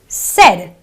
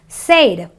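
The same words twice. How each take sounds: First: The vowel is a short eh sound. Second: The vowel is a long ay sound. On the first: The speaker calls it right. "it is a eh sound" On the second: The speaker calls it wrong. "It's not an A sound"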